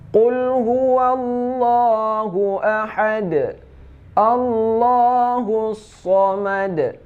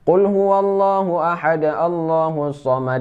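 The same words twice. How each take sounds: First: It stops fully after ahad, then takes breath. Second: It runs on after ahad in one breath. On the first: Each verse is ended separately. "bacaan kalau kita wakaf" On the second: It sounds like one sentence without a real stop. "membaca dengan satu nafas, akan tetapi wakafnya tidak berhenti"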